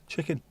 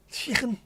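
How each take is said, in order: First: Said in the usual way. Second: High Scouse "Chicken"; Scouse accent. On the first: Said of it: "Say it the way you say it". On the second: Shown as a demonstration. Scouser finally saying chicken their own way, high Scouse accent. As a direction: say "Chicken" in exaggerated Scouse, pitched way up. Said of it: "You say it in a Scouse accent".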